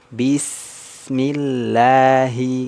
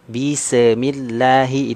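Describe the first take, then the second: First: The s sound flows out smoothly. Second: The s sound is bounced. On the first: The speaker calls it right. "Mengalir suara sempurna" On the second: The speaker calls it wrong. "nggak boleh dipantulkan"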